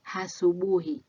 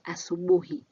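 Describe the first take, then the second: First: The word begins with an H sound. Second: The word begins directly with a vowel. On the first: The speaker calls it wrong. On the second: The speaker calls it right.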